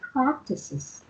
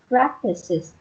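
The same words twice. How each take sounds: First: The first sound is a crisp p sound. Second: The first sound is a soft b-like sound. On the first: The speaker calls it right. "phải là practices" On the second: The speaker calls it wrong. "nó không phải là như chữ bờ của mình hồi nãy chị nói kiểu như là practices thì nó không có chính xác lắm"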